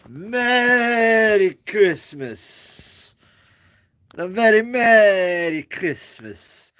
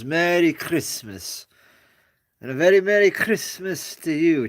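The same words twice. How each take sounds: First: Big, slow, higher drawn-out Merry Christmas; louder, slow, higher sing-song holiday greeting; Mister Hooper greeting. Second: A hint of Mister Hooper, stressing merry and very; mild imitation of the emphatic holiday wish; Mister Hooper greeting. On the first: Retold or imitated. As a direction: stretch every word like a kindly TV shopkeeper. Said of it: "As Mister Hooper used to say it, uh, with that emphasis". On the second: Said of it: "with that emphasis".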